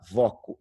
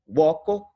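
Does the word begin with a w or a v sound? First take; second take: v; w. First: The word begins with a v consonant. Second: The word begins with a w glide. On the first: "vai virar uma consoante" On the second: "esse U inicial ali é uma semivogal"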